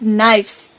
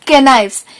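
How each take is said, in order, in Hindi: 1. शुरुआत में कोई "k" ध्वनि नहीं बोली जाती है। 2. शुरुआत में "k" ध्वनि बोली जाती है। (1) "Here the letter K is silent" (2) "it is not knives"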